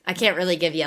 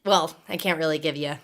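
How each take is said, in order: First: Said in the usual way. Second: A low, voiceless whisper. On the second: Real, not acted. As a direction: lose the voice and just breathe it out. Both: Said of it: "my voice is gone".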